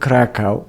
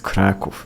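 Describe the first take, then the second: First: The name is said the German way. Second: The name is said the Polish way. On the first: The speaker calls it wrong. "the German pronunciation of Kraków is Krakow. So it's not Krakow" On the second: The speaker calls it right. "it's Kraków. That's the proper pronunciation"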